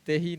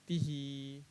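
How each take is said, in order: First: The vowel after t is an e sound. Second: The vowel after t is a long ee. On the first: The speaker calls it wrong. "तेही नहीं" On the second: The speaker calls it right.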